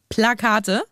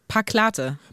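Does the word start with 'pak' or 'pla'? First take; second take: pla; pak. First: The word starts with pla, sounds in order. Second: The word starts with pak, sounds swapped. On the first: The speaker calls it right. "ich kann das Wort nicht aussprechen" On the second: The speaker calls it wrong. "Ich sag ganz oft Paklate"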